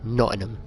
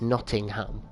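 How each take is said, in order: First: The T, G and H are dropped. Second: The T, G and H are clearly pronounced. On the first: This is how locals say the name. "most people from here will call it Nottingham" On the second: This is the standard form of the name. "because it's Nottingham"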